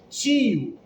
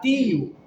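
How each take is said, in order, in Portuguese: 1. É falado com sotaque carioca. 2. É falado com sotaque nordestino. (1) "como carioca, nós falamos tio" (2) "no Nordeste a pessoa vai falar tio"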